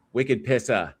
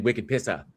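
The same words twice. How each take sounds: First: Wicked Pissa with a light Boston accent, r dropped; a hint of a Boston accent on Wicked Pissa. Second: Said in the usual way. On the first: Shown as a demonstration. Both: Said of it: "try to say it with the, with the Boston accent".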